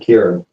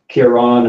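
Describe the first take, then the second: First: The name is pronounced the British way. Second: The name is pronounced the Irish way. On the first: "in Britain, it's normally" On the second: "in Ireland, it's like"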